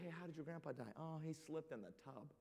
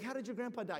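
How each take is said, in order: First: Hushed grandkids. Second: Said in the usual way. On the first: Retold or imitated. Grandkids ask about boring death.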